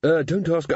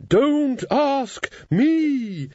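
First: Said in the usual way. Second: Flustered high. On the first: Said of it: "I mean, I mean". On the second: Acted. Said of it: "said Susan".

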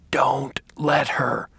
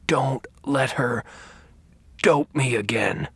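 First: Slow hoarse whisper. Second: Hoarse, slow, forceful plea. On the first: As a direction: rasp it out urgently. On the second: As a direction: push the words out with strength. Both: Acted. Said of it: "he said in a hoarse voice with surprising strength".

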